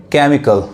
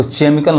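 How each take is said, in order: First: केमिकल opening on a hard "k"; correct K sound. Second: केमिकल misread with "ch" as in chair at the start; wrong CH reading. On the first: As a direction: say केमिकल as "KEM-ikal", CH read as K. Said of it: "क्या पढ़ेंगे?". (केमिकल में "क" की सही आवाज़) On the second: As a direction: say केमिकल wrongly as "CHEM-ikal". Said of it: "इसको केमिकल नहीं पढ़ेंगे". (केमिकल को गलती से "चेमिकल" पढ़ें) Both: Shown as a demonstration.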